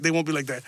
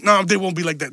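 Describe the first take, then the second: First: Softer, lower, sheepish repeat; sheepish mutter. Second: Said in the usual way. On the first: Real, not acted. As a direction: mumble it to yourself, embarrassed. Takes back a racist joke.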